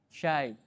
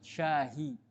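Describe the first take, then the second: First: The word has no h sound inside. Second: The word has an h sound inside. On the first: It could be mistaken for the word for 'something'. "pakai y, pakai ya, syai" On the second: It clearly means tea. "maka ditambahkan ha dalam rangka memudahkan"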